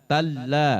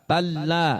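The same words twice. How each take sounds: The two takes are said the same way.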